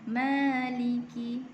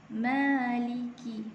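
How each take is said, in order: Both takes have the same delivery.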